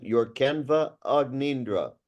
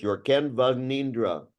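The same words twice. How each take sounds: First: Your Canva Agnindra with an extra syllable after the V; mock the split Canva Agnindra; imitating the wrong take. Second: Your Canva Agnindra run together as one word, no extra syllable; correct demo. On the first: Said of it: "She's saying". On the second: Shown as a demonstration. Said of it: "Just one word".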